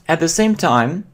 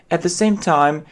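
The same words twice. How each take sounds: The two takes are said the same way.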